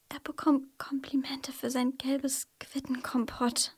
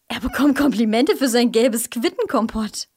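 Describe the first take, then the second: First: It is said in a fearful way. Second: It is said in a surprised way.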